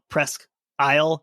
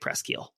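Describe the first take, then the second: First: The name is said with American English sounds. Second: The name is said with French sounds. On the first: This is how places in the United States are named. "we pronounce them that way" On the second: This is how people in Canada say it. "in Canada they, they do say Presqu'île"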